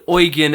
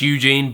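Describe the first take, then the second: First: The name keeps its original non-English pronunciation. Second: The name is pronounced like English Eugene. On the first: This is what he is actually called. "he's technically called Eugen Enin" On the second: This is how English speakers read it. "if you read that to me as an English person, that's, that's Eugene"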